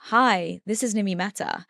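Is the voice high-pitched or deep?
deep. The voice is low and deep.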